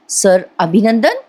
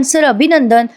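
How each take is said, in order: First: Slow repeat with a questioning rise; bewildered, drawn-out question; puzzled echo. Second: Said in the usual way. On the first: Acted. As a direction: echo it slowly, not understanding. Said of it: "Parth थोडासा गडबडतो".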